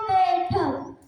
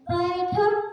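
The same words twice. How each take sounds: First: The first vowel is reduced to a plain 'e'. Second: The first vowel is the full 'ai' sound. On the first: The speaker calls it wrong. "क्या यह सही है?" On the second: The speaker calls it right. "मुझे तो सबसे ज्यादा गलत बोला जाता है।"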